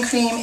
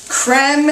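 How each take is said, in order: First: The vowel is long, rhyming with 'team'. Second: The vowel is short, rhyming with 'them'. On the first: "I say cream" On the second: "is really the way this should be pronounced, like creme fraiche or creme brulee"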